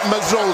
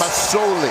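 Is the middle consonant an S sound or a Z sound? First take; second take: Z sound; S sound. First: The middle consonant is a buzzing z sound. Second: The middle consonant is a hissing s sound. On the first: The speaker calls it wrong. "not Mazzoli" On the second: The speaker calls it right. "It's an S. S, not a Z"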